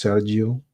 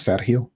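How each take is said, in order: First: "Sergio" with a j sound for the g; English pronunciation. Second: "Sergio" with a breathy h for the g; Spanish pronunciation. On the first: Host guessing the English version for chat, "Sergio" with a j sound. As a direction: say "Sergio" the English way, SER-jee-oh. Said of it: "I guess in, uh, English, it's Sergio". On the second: Host showing chat how Spanish says it, "Sergio" with an h sound. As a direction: say "Sergio" the Spanish way, SER-hee-oh. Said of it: "In Spanish, it's Sergio". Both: Shown as a demonstration.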